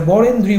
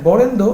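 First: বরেন্দ্রী ending in a clear ee sound; self-corrected বরেন্দ্রী with final ee; corrected word ending. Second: বরেন্দ্র ending in a short o sound; emphatic বরেন্দ্র, closing on -dro; mistaken word ending. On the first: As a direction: finish বরেন্দ্রী on -dree, not -dro. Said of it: "sorry". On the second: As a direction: say বরেন্দ্র without the final long ee. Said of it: "sorry, বরেন্দ্রী উপভাষা". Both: Real, not acted.

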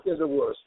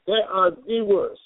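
First: Said in the usual way. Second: "They are the worst" said slowly, each word separated, stress on "They"; emphatic repeat. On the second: Real, not acted.

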